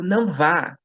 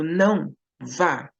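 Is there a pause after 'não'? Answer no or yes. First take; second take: no; yes. First: It is said without a pause. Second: There is a pause after 'não'.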